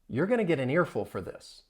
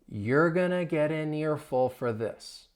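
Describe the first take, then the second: First: The sentence is said at a fast pace. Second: The sentence is said at a slow pace. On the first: "Let's speed it up" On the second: "I'll say it slowly"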